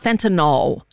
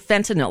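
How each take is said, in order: First: The last syllable has an 'ol' sound. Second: The last syllable has an 'il' sound. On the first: The speaker calls it wrong. "It's not fentanyl" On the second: The speaker calls it right. "There's no O in fentanyl"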